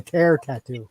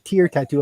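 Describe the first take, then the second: First: The word 'tear' rhymes with 'air'. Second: The word 'tear' rhymes with 'ear'. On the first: A tattoo for a rip or tear. The speaker calls it right. "It might be a tear tattoo" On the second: A teardrop tattoo. The speaker calls it wrong. "you could be mispronouncing that"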